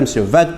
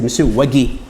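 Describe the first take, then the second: First: The surname starts with a V sound. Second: The surname starts with a W sound. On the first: The speaker calls it wrong. "quand les français m'appellent dit monsieur Vague. Mais non, c'est pas monsieur Vague" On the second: The speaker calls it right. "c'est monsieur Wagé, W A G U E accent aigu"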